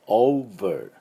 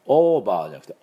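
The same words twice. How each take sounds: First: Over with lip-to-teeth v; right over. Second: Over with a Japanese b sound; wrong over. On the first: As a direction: say over with a clear v. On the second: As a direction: say over as oba, with b. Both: Shown as a demonstration.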